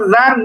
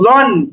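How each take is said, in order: First: The vowel is an open, long 'aa' sound. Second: The vowel is a heavy, rounded 'o' sound. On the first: The speaker calls it wrong. "কিন্তু জান এমন না" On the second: The speaker calls it right. "বরং জন"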